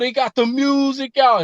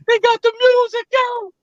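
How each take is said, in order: First: It is said in a normal voice. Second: It is said in a high falsetto voice.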